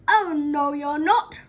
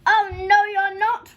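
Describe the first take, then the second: First: Loud, raised troll roar; big storybook roar of refusal. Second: Very loud, high troll roar; enormous outraged troll bellow; roaring even louder. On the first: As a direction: bellow it as an outraged troll. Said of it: "roared the troll". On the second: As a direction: roar the refusal at full force. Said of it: "roared the troll, even louder than before". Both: A narrator's reading.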